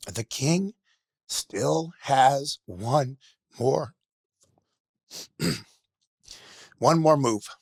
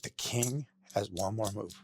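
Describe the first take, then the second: First: Slow, raised cry with heavy pauses; emotional yell. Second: Slow, softened recital to oneself; quiet self-reminder. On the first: Guest retells the chess champion yelling out, emotional slow yell. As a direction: call it out high and loud, word by word. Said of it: "he yells out". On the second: Guest to himself at the mirror every morning, quiet self-reminder. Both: Retold or imitated.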